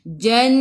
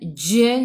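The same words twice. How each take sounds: First: The syllable is said firmly, with no escaping air. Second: The syllable is said with breathy escaping air. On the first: The speaker calls it right. "ingat eh tak ada angin" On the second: The speaker calls it wrong. "jangan buat gitu"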